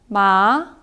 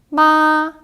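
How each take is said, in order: First: The pitch rises from middle to high. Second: The pitch stays high and level. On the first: "이성은 올라가는 소리입니다" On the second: "일성은 굉장히 높은 쭉 곧게 뻗은 음이에요"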